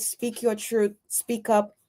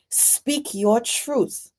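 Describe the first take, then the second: First: "your" gently stressed, much softer; soft encouragement. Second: Each word drawn out slowly and weighted, "your" leaned on; slow emphatic counsel. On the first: Urging Donna not to be afraid, softly. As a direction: coax it quietly. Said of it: "So don't be afraid". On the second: Advising Donna to take her power back, slow and emphatic. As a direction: lay it down slowly like firm advice. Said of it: "and take back authority of your own life". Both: Shown as a demonstration.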